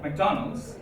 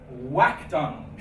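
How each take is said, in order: First: The word begins with an M sound. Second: The word begins with a W sound.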